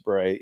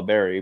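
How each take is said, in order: First: "beret" with stress on the end, buh-RAY, no final t; the American way, "beret" stressed on RAY. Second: "berry" said like the fruit, stress on the first syllable, BEH-ree; British "berry". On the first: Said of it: "but, uh, it's a beret". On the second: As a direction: say "berry" the way the Royal Marines call it. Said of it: "or what they call a berry". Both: Shown as a demonstration.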